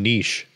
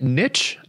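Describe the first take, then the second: First: The word rhymes with quiche. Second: The word rhymes with itch. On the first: "because it rhymes with quiche" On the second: "isn't it niche?"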